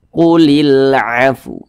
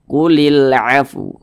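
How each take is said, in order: No difference in how they are said.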